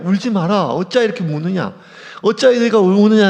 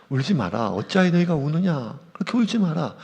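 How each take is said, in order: First: A touch of Jesus, fuller and firmer, quick at first; lightly voiced Jesus asking why they weep; Jesus comforting. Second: Lightly voiced angel, soft and a little lower; a hint of an angel hushing the mourners; gentle angel comfort. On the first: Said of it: "심지어 예수님조차 얘기해요". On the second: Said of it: "천사들이 얘기하거든요".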